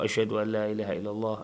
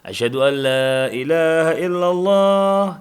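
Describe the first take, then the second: First: It is said quietly, almost under the breath. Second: It is said loudly, in a full voice.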